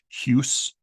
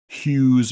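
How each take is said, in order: First: The final s is unvoiced, like a hiss. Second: The final s is voiced, like a z. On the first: "they might have pronounced as unvoiced like the Germans do" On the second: "terminal S we pronounce as voiced"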